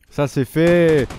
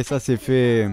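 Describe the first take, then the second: First: Louder, punchier ça c'est fait; proud little victory line; triumphant. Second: Said in the usual way. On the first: Real, not acted. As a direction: declare the job done with a flourish.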